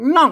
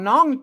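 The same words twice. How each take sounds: First: The word is said with a falling tone. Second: The word is said with a high tone. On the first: This is how Tai Lue descendants say it. "ออกเสียงน้องเสียงโทรปกติ" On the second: This is how Chiang Mai speakers say it. "น้องน้องตีนะครับ"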